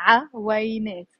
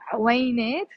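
First: عوينات with a full first vowel, "'a-way-NAAT"; three syllables. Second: عوينات run together as "'way-NAAT"; two syllables. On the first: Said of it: "three syllables". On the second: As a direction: squeeze عوينات into two syllables, no vowel after ع. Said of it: "two syllables". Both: Shown as a demonstration.

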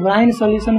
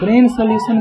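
First: ब्राइन said with a clear long "ai", like brine; ब्राइन sounds like brine, not brain; correct pronunciation. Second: ब्रेन solution with ब्रेन said like brain, a short e sound; ब्रेन sounds like brain, not brine; wrong way some say it. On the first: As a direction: give ब्राइन its proper "brai" sound. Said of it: "ब्राइन solution बोलते हैं". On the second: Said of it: "ब्रेन solution बोलते हैं कुछ लोग". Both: Shown as a demonstration.

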